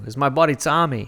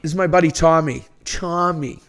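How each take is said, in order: First: Imitating a Boston accent, louder and higher; mock Boston guy introducing his buddy; repeating the friend's intro in a hammed-up Boston accent. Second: Showing the real Boston accent, understated; a subtle Boston "buddy Tommy"; correcting the other guy with a lighter Boston accent. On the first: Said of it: "That was very Boston of you". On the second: Shown as a demonstration. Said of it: "People get the Boston accent wrong".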